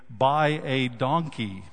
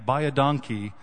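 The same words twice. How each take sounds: First: It is said slowly with a different emphasis. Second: It is said quickly, like the Afrikaans phrase.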